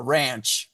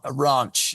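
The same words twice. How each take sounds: First: It is said in an American accent. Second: It is said in a non-American accent.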